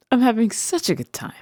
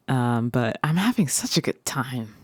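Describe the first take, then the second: First: Higher, faster burst of joy; quick, higher excited repeat. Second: Said in the usual way. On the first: Acted. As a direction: gush it out.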